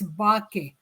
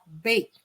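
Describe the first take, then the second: First: Every letter is sounded as it is spelled. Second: It is said as one English syllable. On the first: The speaker calls it wrong. "We don't read it as" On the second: The speaker calls it right.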